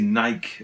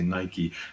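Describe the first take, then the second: First: Nike is said the British way. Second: Nike is said the non-British way. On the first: This is how people in the UK say it. "we say Nike as well" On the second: People in the UK do not say it this way. "We don't say Nike"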